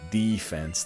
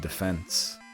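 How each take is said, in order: First: The stress is on the first syllable. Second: The stress is on the second syllable. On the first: This is how Americans say it. The speaker calls it wrong. "They really put the emphasis on the D" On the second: This is how it is meant to be said. The speaker calls it right. "It was supposed to be defense"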